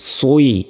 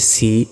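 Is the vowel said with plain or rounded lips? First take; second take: rounded; plain. First: The vowel starts with rounded lips. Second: The vowel is a plain, unrounded i sound. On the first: The speaker calls it right. "প্রথমে ঠোঁটটা গোল করতে হবে" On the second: The speaker calls it wrong. "সজ্জেরও আমরা কি বলি সি ... এটা সম্পূর্ণ ভুল"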